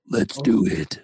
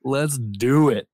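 First: Slow, put-on dramatic delivery; more dramatic. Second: Said in the usual way. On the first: Shown as a demonstration. Co-host hyping the sandrider episode, more dramatic. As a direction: redo it with added drama. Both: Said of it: "I needed more drama in my voice".

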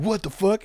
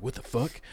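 First: Higher-pitched acted alarm; mock startled. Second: Soft, puzzled mock reaction; muted disbelief. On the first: Person hearing a ghost in their ear, mock startled. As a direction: exclaim it in mock shock. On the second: Person seeing an orange move by itself, muted disbelief. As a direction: mutter it under the breath, baffled.

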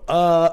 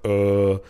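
First: "uh" as a held, higher vowel sound; Hebrew vowel demo. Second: "uh" as a held, lower vowel; contrasting vowel demo. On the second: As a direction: sound out "uh" lower, as the other vowel. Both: Shown as a demonstration. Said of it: "under the letters where you go".

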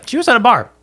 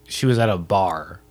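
First: High, loud mock outrage; mock shocked punchline. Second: Sarcastic. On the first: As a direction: blurt it out in high-pitched disbelief. Repeats the line as a punchline. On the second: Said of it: "I'm being sarcastic". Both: Real, not acted.

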